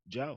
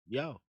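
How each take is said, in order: First: It is said as Joe, Baltimore style. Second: It is said as yo, New York style.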